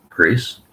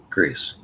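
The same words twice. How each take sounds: First: A loud rising call of the name. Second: Said in the usual way. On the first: Acted. David calls out to Grace from bed, a loud rising call. Calling out to wake partner.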